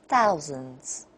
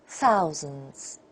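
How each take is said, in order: Both takes have the same delivery.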